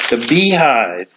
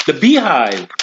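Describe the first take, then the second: First: The Beehive said slowly and deliberately, as a correction; careful correction. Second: Said in the usual way. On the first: Real, not acted. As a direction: restate The Beehive carefully, drawing it out. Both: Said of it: "pardon me".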